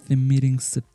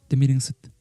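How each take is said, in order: The two takes are said the same way.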